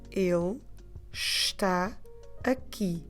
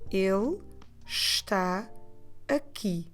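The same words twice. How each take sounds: No difference in how they are said.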